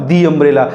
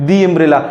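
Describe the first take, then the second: The two takes are said the same way.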